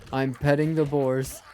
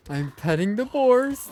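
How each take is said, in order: First: Said in the usual way. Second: Excited. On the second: Real, not acted. Repeats it with a higher shout.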